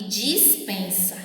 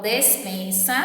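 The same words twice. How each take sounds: First: Dispensa said with dji, dis-pensa, slowly; correct dis-. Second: Despensa said with a clear e, des-pensa; despensa, e in the first syllable; correct des-. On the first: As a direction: dispensa starting with an i sound, slow. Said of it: "Eu falo despensa e dispensa". (dispensa com i, devagar) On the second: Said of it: "Eu falo despensa". (despensa com e, pronúncia correta) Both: Shown as a demonstration.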